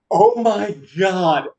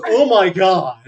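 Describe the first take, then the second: First: Slow, higher, stunned exclamation; acted astonishment. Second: Loud, higher, horrified exclamation; acted shock. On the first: Game master voices man looking up at his rescuer, slow astonishment. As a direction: draw it out in stunned awe. Startled character looks up at rescuer. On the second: Game master voices man looking at his hand, loud shock. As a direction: blurt it out in comic horror.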